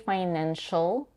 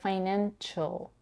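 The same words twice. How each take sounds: First: The last syllable starts with a plain sh sound. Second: The last syllable starts with a ch sound. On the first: "She doesn't say financial" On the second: "but financial. Here we have an intrusive t"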